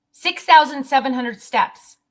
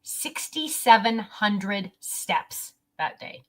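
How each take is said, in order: First: Louder repeat with thousand stressed; emphatic repeat. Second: Said in the usual way. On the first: Real, not acted. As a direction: punch "thousand" louder in amazement. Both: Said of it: "repeats the number for emphasis".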